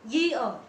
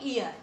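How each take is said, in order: First: It starts with a clear 'y' sound. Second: It starts directly with a vowel sound. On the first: The speaker calls it right. "it is not ear, it is year" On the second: The speaker calls it wrong. "they think that it is silent and they call it ear"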